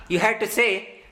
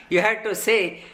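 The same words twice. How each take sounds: The two takes are said the same way.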